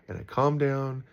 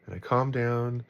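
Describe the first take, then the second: No difference in how they are said.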